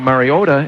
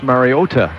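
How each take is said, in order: First: The last syllable carries the stress. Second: The last syllable carries no stress. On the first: The speaker calls it wrong. "just like you were saying Mariota" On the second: The speaker calls it right. "you don't accent the last syllable"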